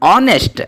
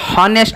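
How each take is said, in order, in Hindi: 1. यह शब्द सीधे स्वर ध्वनि से शुरू होता है। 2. यह शब्द h ध्वनि के उच्चारण से शुरू होता है। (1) "ದಟ್ ಈಸ್ ಆನೆಸ್ಟ್. ಇಲ್ಲಿ ಸ್ವರದ ಉಚ್ಚಾರಣೆ ಆಗ್ತಾ ಇದೆ" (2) "ಹಾನೆಸ್ಟ್ ಅಲ್ಲ ಅದು"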